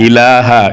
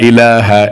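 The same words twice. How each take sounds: The two takes are said the same way.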